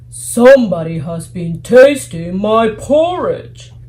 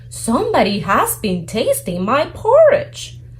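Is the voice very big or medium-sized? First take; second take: very big; medium-sized. First: It is said in a great big voice. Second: It is said in a middle-sized voice.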